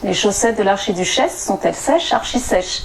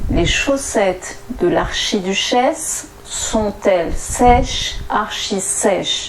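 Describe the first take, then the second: First: The sentence is said at a faster pace. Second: The sentence is said at a slower pace.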